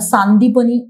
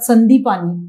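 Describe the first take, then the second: First: The first vowel is long, the third short. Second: The first vowel is short, the third long. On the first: The speaker calls it right. "Actually आपण त्याला सांदीपनी असं प्रोनाऊन्स करायला पाहिजे" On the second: The speaker calls it wrong. "हे चुकीचं pronunciation आहे"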